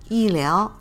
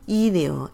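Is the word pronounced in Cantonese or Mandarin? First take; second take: Mandarin; Cantonese. First: The word is pronounced the Mandarin way. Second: The word is pronounced the Cantonese way.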